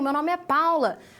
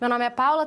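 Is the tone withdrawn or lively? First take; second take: lively; withdrawn. First: It is said in a lively, expressive manner. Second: It is said in a withdrawn, flat manner.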